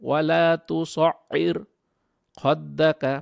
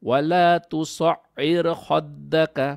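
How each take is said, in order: First: There is a pause after tusa'ir. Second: The phrase runs on without any pause. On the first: "ভেঙে পড়লে কি হবে ... এটা হলো ব্রেক নিয়ে পড়লাম" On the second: "ব্রেক না নিয়ে পড়লাম"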